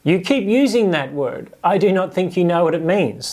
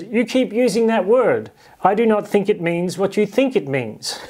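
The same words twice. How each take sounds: First: A lighter echo of the swashbuckler line; movie quote again. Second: Lightly voiced swashbuckler, higher and pointed; a playful movie-quote delivery, pitched up. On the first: Retold or imitated. Preacher putting the movie line in Jesus' mouth, lightly voiced. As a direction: toss the famous line back, a bit higher. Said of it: "That's what Jesus is saying". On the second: Preacher quoting Princess Bride to the congregation, playful and higher. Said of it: "where the character says".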